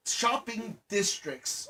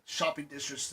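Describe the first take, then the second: First: "shopping districts" slowly and deliberately sounded out; careful pronunciation. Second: "shopping districts" slurred, the ending muddled; stumbled pronunciation. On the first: Speaker correcting a stumble, carefully enunciating "shopping districts". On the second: Speaker describing business areas, fumbling "districts". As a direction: trip over the consonant cluster in "districts". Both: Real, not acted. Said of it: "I could not say that".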